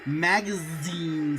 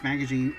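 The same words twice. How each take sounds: First: It is said with a Japanese pronunciation. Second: It is said with a plain English pronunciation.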